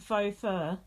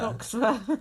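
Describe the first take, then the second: First: The first word sounds like 'foe', without 'ks'. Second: The first word sounds like 'fox', ending in 'ks'. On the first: This is the intended term. The speaker calls it right. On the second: Someone else said it this way by mistake. The speaker calls it wrong.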